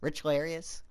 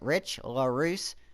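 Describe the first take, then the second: First: The surname ends with an extra 'ee-us' sound. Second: The surname ends with a single 'roos' sound. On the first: The speaker calls it wrong. "I haven't been saying it right" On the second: The speaker calls it right. "telling me that's how you pronounce it"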